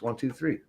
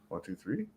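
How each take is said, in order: First: The voice falls on three, like a statement. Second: The voice rises on three, like a question.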